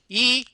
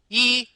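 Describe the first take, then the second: First: The vowel is voiced with a tight, squeezed sound. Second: The vowel is voiced with a tight, squeezed sound.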